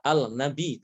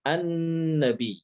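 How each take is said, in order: First: Al-nabi with the l pronounced before the n; wrong clear lam. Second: An-nabi slow, lam merged into a doubled n. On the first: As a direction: say al-nabi as the mistaken form. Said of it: "Bukan dibaca". (al-nabi, lam dibaca jelas (salah)) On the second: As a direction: stress an-nabi with a held nn. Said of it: "tapi an-nabi". (an-nabi dengan nun bertasydid, pelan) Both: Shown as a demonstration.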